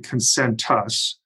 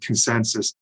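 First: The word is said with a t sound. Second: The word is said without a t sound. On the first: The speaker calls it right. "It's actually Concentus. There's a T in there" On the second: The speaker calls it wrong. "people very often pronounce it"

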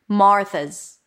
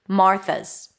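The two takes are said the same way.

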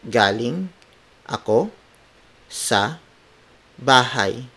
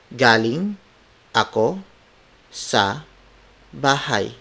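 Both takes have the same delivery.

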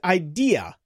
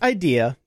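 First: It is pronounced to rhyme with IKEA. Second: It is pronounced like the ordinary word idea. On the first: The speaker calls it right. "It's idea because it's a take on IKEA" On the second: The speaker calls it wrong. "It's not idea"

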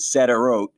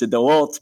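First: The name is said with an English pronunciation. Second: The name is said with a Hebrew pronunciation. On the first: "the way you hear it on the news" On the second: "the way I know to say it in Hebrew"

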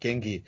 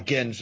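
First: The final g is hard, as in get. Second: The final g is soft, like a j. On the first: The speaker calls it wrong. "you don't hit all three G's" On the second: The speaker calls it right. "you just sort of get and then you nj, like Genge, Stonehenge"

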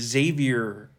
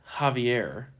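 First: The name begins with a z sound. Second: The name begins with an h sound. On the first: The speaker calls it wrong. "I like to say Xavier Becerra" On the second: The speaker calls it right. "But apparently it's Javier"

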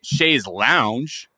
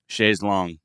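First: The second word is pronounced like 'lounge'. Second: The second word is pronounced like 'long'. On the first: "because we're just like dirty Americans" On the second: "the way they sing it is very confident and the pronunciation is long"

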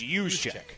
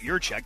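First: The first syllable has no R sound. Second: The first syllable has an R sound. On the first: The speaker calls it right. "It's use check" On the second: The speaker calls it wrong. "There's not an R in the name"

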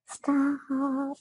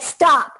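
First: It is said softly and pleadingly. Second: It is said firmly and commandingly.

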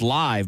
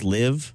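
First: The vowel rhymes with the word five. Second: The vowel rhymes with the word give. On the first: The band performs in person. The speaker calls it right. "come see the Rolling Stones live" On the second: It is misread as the verb meaning to reside. The speaker calls it wrong. "sometimes you might read it as"

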